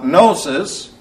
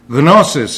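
First: The word starts with an N sound. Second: The word starts with a G sound. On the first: "the English translation, or rather English pronunciation" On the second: "the way it's pronounced in Greek. Notice the G is in there"

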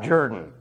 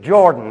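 First: It uses a Southern Georgia-style pronunciation. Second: It uses a standard, non-Southern pronunciation. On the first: The speaker calls it wrong. "not Jordan" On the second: The speaker calls it right. "The country is Jordan"

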